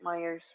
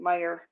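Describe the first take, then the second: First: The name ends with an added s sound. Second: The name ends without any s sound. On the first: This is the local Michigan way of saying it. The speaker calls it wrong. "I say it wrong all the time" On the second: This is the actual name. The speaker calls it right. "It's actually just Meyer"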